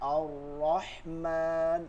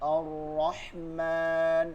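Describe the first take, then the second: Both takes have the same delivery.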